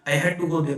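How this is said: It is said with a pressed, urgent tone. The speaker was forced to go. "ये बात कैसी दिखा रहा है, कंपल्सन की"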